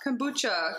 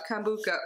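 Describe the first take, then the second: First: Kombucha said "kom-BOO-chuh"; ch-sound kombucha. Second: Kombucha said "kom-BOO-kuh"; hard-k kombucha. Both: Real, not acted. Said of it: "Kombucha or kombucha?".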